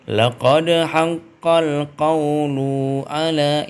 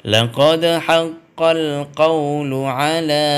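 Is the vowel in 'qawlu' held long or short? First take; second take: long; short. First: The vowel in 'lu' is drawn out long. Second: The vowel in 'lu' is kept short. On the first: The speaker calls it wrong. "Kalau lu-nya sudah ditahan agak lama lebih dari satu harakat berarti sudah keliru" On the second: The speaker calls it right. "ya gitu ya"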